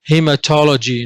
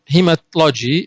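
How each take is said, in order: First: It is said with a vowel before 'logy'. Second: It is said without a vowel before 'logy'. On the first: The speaker calls it right. "we need a vowel to make the pronunciation smoother and easier" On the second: The speaker calls it wrong. "is a little bit difficult"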